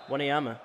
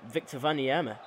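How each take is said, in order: First: Said in the usual way. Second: Wanyama with a V sound, vah-nee-EH-ma; accented name. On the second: Real, not acted. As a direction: say Wanyama as "Vaniema" with a foreign V. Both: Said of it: "a bit of an accent there".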